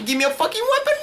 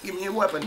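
First: Very high-pitched, desperate squeal; frantic demand. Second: Said in the usual way. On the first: Real, not acted. Player without a weapon in a fight, frantic. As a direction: shriek the demand in a panic.

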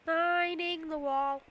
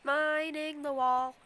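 No difference in how they are said.

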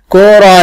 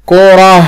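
First: كرة as kuratun, higher and louder; voweled ending. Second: كرة ending in a breathed h, kurah; sukun ending. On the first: Teacher pointing out the last letter, كرة as kuratun. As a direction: ring out the "-tun" on كرة. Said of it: "لما أشكلها". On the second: Teacher quizzing a pupil, كرة as kurah. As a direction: close كرة on h, no t. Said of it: "آخر الكلمة لما أشكلها". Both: Shown as a demonstration.

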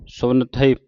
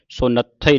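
First: ਸੁਨਥਈ with ਥਈ set apart, no doubled consonant; careful teacher's ਸੁਨਥਈ, single ਥ; correct reading. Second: ਸੁਨੱਥਈ run together with a doubled ਥ; wrong joined reading. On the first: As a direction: read ਸੁਨਥਈ as ਸੁਨ plus ਥਈ. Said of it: "ਪਾਠ ਪੜ੍ਹਨਾ ਹੈ". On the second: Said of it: "ਨਹੀਂ ਪੜ੍ਹਨਾ ਇਹਨੂੰ". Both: Shown as a demonstration.

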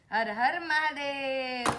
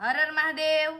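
First: Put-on slow, softer chant so the child can copy; very slow hushed prompt to a toddler. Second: Said in the usual way. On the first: Shown as a demonstration. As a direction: draw each word out gently. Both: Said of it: "હર હર Mahadev કરો".

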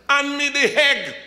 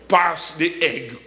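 First: "egg" said as "hegg", with an added H; imitated island dialect. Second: Said in the usual way. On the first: Jamaican asking Brother Prescott at table, "egg" said as "hegg". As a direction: put an H on the front of "egg", pitched high. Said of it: "And they drop the H". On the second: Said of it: "you know what he said there?".

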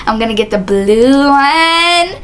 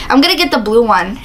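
First: Slow, stretched-out BLUE ONE; playfully drawn out. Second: Said in the usual way. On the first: Pretend. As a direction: linger on "blue one", teasing it out. Playful drawn-out repeat of line.

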